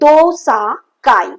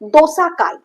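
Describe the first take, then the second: First: The name is said slowly, broken into parts. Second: The name is said smoothly at normal speed.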